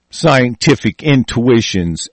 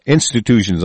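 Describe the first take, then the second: First: Scientific intuitions said slowly and softly, with the word intuitions in place of institutions; misread word. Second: Said in the usual way. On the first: Real, not acted. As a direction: misread intuitions, spoken low and slow. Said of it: "institutions, I'm sorry". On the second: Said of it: "I'm sorry".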